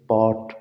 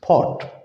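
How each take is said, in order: First: The first sound has no puff of air. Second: The first sound has a puff of air. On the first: The speaker calls it wrong. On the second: The speaker calls it right.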